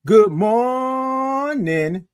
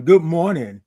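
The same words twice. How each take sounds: First: Very slow, high held MORNING; high, sustained sing-out greeting; drawn-out good morning. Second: Said in the usual way. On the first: Shown as a demonstration. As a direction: stretch MOR way out on a high note. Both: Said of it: "That's what I want you to do".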